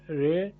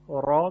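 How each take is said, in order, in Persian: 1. این مصوت به سمت e میل دارد و صدایش نازک است. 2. این مصوت یک الف باز و سنگین است.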